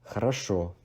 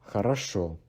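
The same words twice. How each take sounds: The two takes are said the same way.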